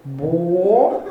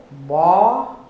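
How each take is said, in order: First: "Bola" with the O sunk to a closed "oh"; slow "Bola", closed first vowel held and sliding upward; dropped O. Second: "Bola" with the O opened to "aw"; slow "Bola", open first vowel held and swelling; raised, open O. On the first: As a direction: stretch "Bola" in two syllables, O closed and starting low. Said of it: "você deixou o O cair". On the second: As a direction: stretch "Bola" in two syllables, lifting an open O. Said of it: "Levanta esse O". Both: Retold or imitated.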